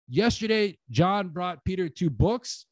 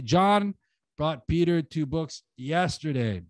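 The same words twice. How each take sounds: First: Slow demo read putting the weight on "two books"; final stress falls on "two books", said slowly. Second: Slow demo read landing the weight on "yesterday."; end-focus on "yesterday", said slowly; stress on yesterday. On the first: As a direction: end the sentence landing on "two books.". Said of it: "I'm gonna put the two books at the end". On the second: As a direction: let the final "yesterday." carry the stress. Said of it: "shift the stress to the when". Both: Shown as a demonstration.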